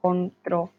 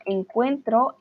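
First: "Encontró" with the stress landing on the final -tró; past tense form. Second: "encuentro" said slowly and clearly, stress on -cuen-; present tense form. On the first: Teacher correcting a student's verb, showing "Encontró" with the stress on the final -tró. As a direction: model "Encontró", stressing the last syllable -tró. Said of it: "El pasado encontró". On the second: Teacher correcting a student's verb, showing "encuentro" with the stress on -cuen-. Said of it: "La palabra encuentro es presente". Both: Shown as a demonstration.

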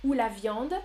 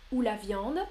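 The two takes are said the same way.

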